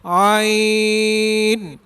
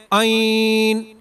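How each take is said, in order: First: عین drawn out from the throat; correct reading. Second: عین said the way many wrongly read it, held long. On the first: Teacher showing the right way, a drawn-out عین. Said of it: "اس طرح ہی پڑھا جائے". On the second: Teacher mimicking a common student mistake, a wrong عین. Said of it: "کافی لوگ غلطی کرتے ہیں". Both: Shown as a demonstration.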